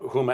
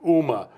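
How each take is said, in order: First: The name begins with an h sound. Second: The name begins without an h sound. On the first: "when he would talk about Huma Abedin" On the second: "he had a problem with a lot of H's"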